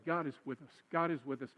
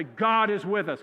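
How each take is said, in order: First: Soft, low, sincere reassurance; kindly, without sarcasm. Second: Louder, drawn-out preacher delivery. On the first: Pastor showing how to comfort someone whining, gentle and sincere. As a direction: say it gently, lower and softer. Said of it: "Don't say it meanly. Don't say it sarcastically". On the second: Pastor showing congregation how to say it, preacher voice. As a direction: say it slow and strong like a preacher. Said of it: "say it in your best preacher voice". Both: Shown as a demonstration.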